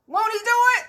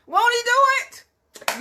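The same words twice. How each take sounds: First: Much higher, louder catchphrase; imitating Paul Martin. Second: High, loud and slow catchphrase; imitating Paul Martin. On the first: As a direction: belt it out like the radio host. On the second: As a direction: stretch it out like the radio host. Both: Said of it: "I can't say it like Paul Martin say".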